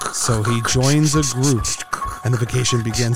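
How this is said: It is read in an ominous, horror-film trailer tone.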